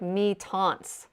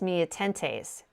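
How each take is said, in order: First: The name ends with a 'taunts' sound. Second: The name ends with a 'tentes' sound. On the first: The speaker calls it right. "It's like mi taunts or something" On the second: The speaker calls it wrong. "it's not pronounced mi atentes"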